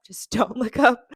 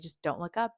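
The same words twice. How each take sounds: First: Louder, slow, laughing through it; giggling self-reminder to stay calm; laughing self-pep talk. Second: Said in the usual way. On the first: Retold or imitated. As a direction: coach yourself with a nervous laugh. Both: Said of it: "just told myself".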